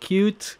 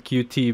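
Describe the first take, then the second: First: The name is said as one single word. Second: The name is spelled out as two letters. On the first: This is the name the makers prefer. "They would like us to call it Qt" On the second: This follows how the name is written. "It's a Q and a T"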